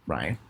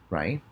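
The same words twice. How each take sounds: The two takes are said the same way.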